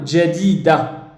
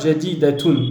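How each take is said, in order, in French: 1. Le mot se termine sur une voyelle, sans -tun. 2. Le mot se termine par une syllabe -tun prononcée. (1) "On va plutôt dire à l'oral jadida" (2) "On ne dit pas jadidatun"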